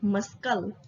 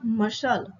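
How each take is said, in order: First: The C in the middle is pronounced. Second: The C in the middle is silent. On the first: The speaker calls it wrong. "not muscle" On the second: The speaker calls it right. "It's called muscle"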